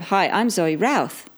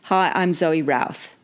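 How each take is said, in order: First: The pitch rises on the last name. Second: The pitch falls on the last name. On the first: The speaker sounds less confident, like asking a question. The speaker calls it wrong. "which doesn't sound as commanding" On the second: The speaker sounds confident and in command. The speaker calls it right. "make sure that you drop your tone on your last name... It's very commanding"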